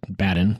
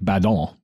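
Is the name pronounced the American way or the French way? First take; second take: American; French. First: The name is given an American-style pronunciation. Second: The name is given a French-style pronunciation. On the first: This is how Americans say the name. "we're Americans, we pronounce it Badin" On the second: This is how he probably said his own name. "since he was French, it was probably like Badon"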